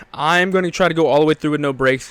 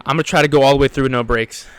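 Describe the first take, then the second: First: "I'm gonna" spelled out firmly as "I am going to"; measured resolve, each word of "I'm gonna" given weight; deliberate restatement. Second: Said in the usual way. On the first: Real, not acted.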